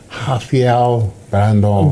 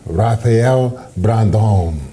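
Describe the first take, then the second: First: The first name begins with an H sound. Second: The first name begins with an English R sound. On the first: The speaker calls it right. "Chris stuck the landing" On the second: The speaker calls it wrong. "it's not Ra Ra"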